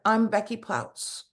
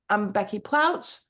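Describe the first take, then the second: First: The voice gets quiet at the end. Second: The voice stays strong to the end. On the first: The speaker calls it wrong. "you got quiet at the end" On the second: The speaker calls it right. "instead of saying"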